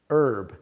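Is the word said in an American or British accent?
American. It is said in an American accent. "in American English"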